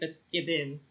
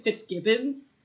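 First: The name ends without an s sound. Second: The name ends with an s sound. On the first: The speaker calls it right. "There's no S at the end" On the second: The speaker calls it wrong. "I mispronounced Fitzgibbon the whole time. I kept calling him Fitzgibbons"

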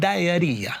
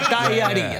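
First: The word is said in a plain accent. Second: The word is said in an Italian accent.

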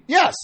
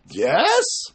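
First: The yes is said with a sincere tone. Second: The yes is said with a sarcastic tone. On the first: The answer is really yes. "Or you can mean, yes" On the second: The answer is really no. "Like, for sure not"

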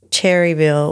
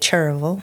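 First: The name has three syllables. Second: The name has two syllables.

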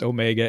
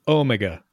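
First: The stress is on the second syllable. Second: The stress is on the first syllable.

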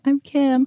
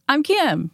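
First: The voice sounds small and hesitant. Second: The voice sounds strong and self-assured. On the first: The speaker calls it wrong. "I'm not like" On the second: The speaker calls it right. "I come in with"

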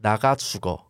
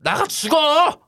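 First: It is said calmly, without anger. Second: It is said fiercely and angrily.

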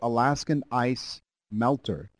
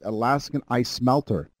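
First: The name is said at a normal pace. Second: The name is said very quickly.

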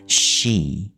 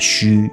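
First: The vowel is a long unrounded ee sound. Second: The vowel is rounded, like Mandarin xu. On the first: The speaker calls it right. "其实它的正确念法是she，它是e 的长母音的" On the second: The speaker calls it wrong. "有很多朋友他们都习惯念成虚"

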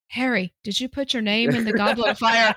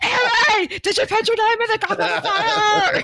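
First: It is said calmly, like book Dumbledore. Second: It is said angrily, like movie Dumbledore.

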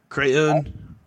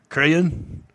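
The two takes are said the same way.

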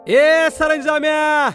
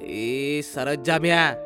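First: It is shouted very loudly and angrily. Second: It is said with the voice slightly raised. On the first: "जोर जोरात ओरडायला लागतो" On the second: "हलकासा आवाज चढवत"

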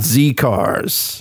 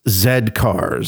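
First: The letter is pronounced 'zee'. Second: The letter is pronounced 'zed'. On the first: The speaker calls it wrong. "Not Z cars" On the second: The speaker calls it right. "Because it's Z cars"

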